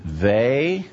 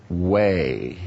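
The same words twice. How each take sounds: First: They said as a drawn-out vay; V pronunciation. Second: Way drawn out with a rounded W; W pronunciation. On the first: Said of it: "pronounce the last syllable". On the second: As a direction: stretch way slowly, starting on W. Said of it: "So which is it?". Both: Acted.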